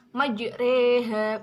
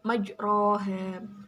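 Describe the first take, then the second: First: The vowel after r sounds like e. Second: The vowel after r sounds like o. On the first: The speaker calls it right. "berhubung dibaca imalah, jadi membacanya majreha" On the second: The speaker calls it wrong. "bukan majroha"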